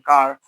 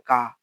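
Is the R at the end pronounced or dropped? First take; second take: pronounced; dropped. First: The final R is pronounced. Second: The final R is dropped. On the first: "instead of saying car" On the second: "the R at the end of a word can be like non-rhotic"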